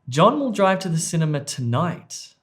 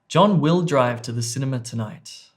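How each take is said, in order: First: The stress falls on the word 'tonight'. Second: The stress falls on the word 'will'. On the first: "The emphasis or stress was on E" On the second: "the emphasis or the word stress there was on B"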